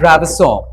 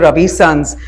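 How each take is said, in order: First: It is said as one French-style word. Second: It sounds like an Indian name plus 'sons'. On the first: It is a French brand name. The speaker calls it right. "It is a French brand" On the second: It is taken as an Indian family name. The speaker calls it wrong. "they think it's Ravi Sons, like Ravi Chawla"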